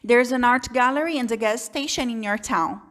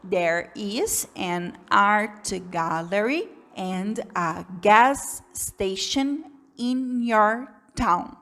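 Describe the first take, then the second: First: It is read quickly and smoothly without pauses. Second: It is read slowly with pauses between words. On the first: The reader is used to the words and structures. The speaker calls it right. "Muito mais rápido, muito mais fluido" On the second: The reader is a beginner. The speaker calls it wrong. "Se você é um iniciante, você vai ler essa frase mais ou menos assim"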